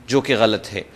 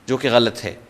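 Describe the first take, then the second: The two takes are said the same way.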